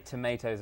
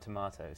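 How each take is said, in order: First: The middle vowel sounds like the vowel in day. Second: The middle vowel sounds like the vowel in father. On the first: The speaker is adapting to American listeners. "I did just say tomatoes" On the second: This is the speaker's usual way of saying it. "and not tomatoes"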